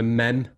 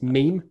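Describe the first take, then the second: First: The word is said as 'mem' with a short vowel. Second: The word is said as 'meme' with a long vowel. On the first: The speaker calls it wrong. "Who pronounces it mem?" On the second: The speaker calls it right. "It's meme"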